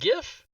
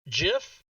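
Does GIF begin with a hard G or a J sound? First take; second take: hard G; J sound. First: It begins with a hard G sound. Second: It begins with a soft J sound. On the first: The speaker calls it wrong. "not GIF ... the G stands for graphic" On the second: The speaker calls it right. "it's pronounced GIF"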